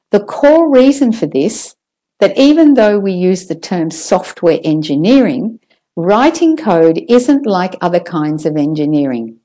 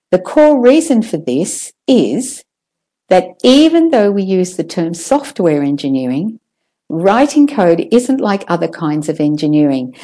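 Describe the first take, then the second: First: Said in the usual way. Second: Chunk the sentence into phrases; chunked phrasing. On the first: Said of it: "I'll say that one again". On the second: Shown as a demonstration. Teacher rereading a dense sentence, chunked. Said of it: "I'm chunking again or phrasing again".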